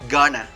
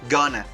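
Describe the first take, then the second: First: The words are blended into one reduced word. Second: The same.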